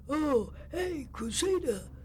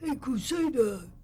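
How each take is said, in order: First: It is said in a hoarse voice. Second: It is said in a plain voice.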